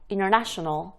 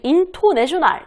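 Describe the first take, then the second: First: The t sound after the n is dropped. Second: The t sound after the n is clearly pronounced. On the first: The speaker calls it right. "이렇게 발음되죠" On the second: The speaker calls it wrong. "이런 거 없어요"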